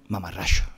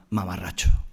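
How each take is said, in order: First: It is said in a local Andalusian accent. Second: It is said in a neutral standard accent.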